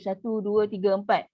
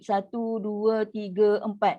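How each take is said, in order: First: The four counts are said at moderate speed. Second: The four counts are said slowly and drawn out. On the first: "kalau tadwir" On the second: "Kalau tahqiq"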